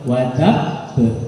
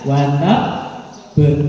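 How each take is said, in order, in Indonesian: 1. Frasa itu diucapkan lurus tanpa berhenti. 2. Ada jeda singkat di dalam frasa. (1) "Jadi langsung" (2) "berarti itu ada saktanya. Salah"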